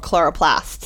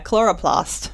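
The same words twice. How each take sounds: First: It is said with an American-style vowel. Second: It is said with a non-American vowel. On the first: This is how the word was said in the old lab. "words that I think I say more American just because my boss says it" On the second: This is the other common way to say it. "How else would you say it?"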